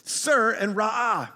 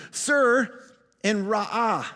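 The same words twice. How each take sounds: First: Sir and ra'ah said slowly, accent moved to its proper place; slow, deliberate Sir and ra'ah, accent fixed; corrected stress. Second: Sir and ra'ah with the accent misplaced, the way he then corrects; wrong stress. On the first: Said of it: "The accent goes over here". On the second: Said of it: "I did that wrong". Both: Shown as a demonstration.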